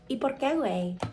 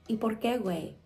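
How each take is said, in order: First: It is said in a posh Mexican accent. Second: It is said in a neutral accent.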